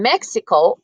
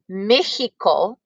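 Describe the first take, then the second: First: It is said with an English pronunciation. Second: It is said with a Spanish pronunciation.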